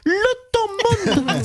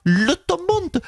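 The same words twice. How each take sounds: First: Slow, higher, stretched out; drawn-out punchline. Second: Said in the usual way. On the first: Pretend. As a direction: drag the words out slowly. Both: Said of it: "Marine Le Pen, bonjour".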